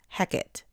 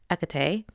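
First: The name is given its Shakespearean pronunciation. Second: The name is given its Greek pronunciation. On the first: "the Shakespearean pronunciation is Hecate" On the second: "the Greek pronunciation is Hecate"

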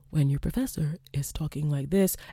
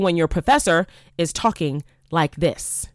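First: The voice is quiet and low in energy. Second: The voice is loud and projected with energy. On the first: The listeners would easily fall asleep. The speaker calls it wrong. "it's very easy to fall asleep when your professor is talking like this" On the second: The listeners stay awake. The speaker calls it right. "as opposed to when your professor is talking like this"

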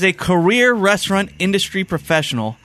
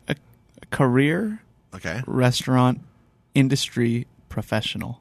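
First: The phrase is said at a normal pace. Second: The phrase is said slowly and deliberately.

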